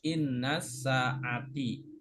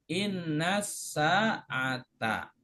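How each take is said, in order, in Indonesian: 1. Kata terakhir diakhiri dengan vokal i. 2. Kata terakhir diakhiri dengan vokal a. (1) "Nggak boleh dibaca" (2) "harokat terakhirnya mansub yaitu dengan fathah"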